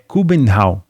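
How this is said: The name is said the Danish way. This is the native form. "no Danish, a pronúncia é Kubenhavn"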